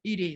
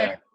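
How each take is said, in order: First: "Edie" said as EE-dee, long ee at the start; "Edie" with a long EE sound, like Edie; mispronounced name. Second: "Eddie" said ED-ee, short e like in bed; corrected name. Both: Real, not acted. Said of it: "It's Eddie".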